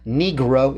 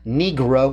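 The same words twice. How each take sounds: First: The word is pronounced with English sounds. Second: The word is pronounced with English sounds.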